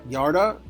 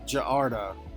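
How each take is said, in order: First: The name begins with a Y sound. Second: The name begins with a J sound.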